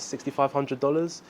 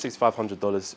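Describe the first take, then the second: First: The price is said hesitantly, without conviction. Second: The price is said confidently, with full conviction. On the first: The seller doubts the price is worth it. The speaker calls it wrong. "you have no conviction in the way you're saying it" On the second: The seller believes the price is simple and fair. The speaker calls it right. "If you say it with conviction"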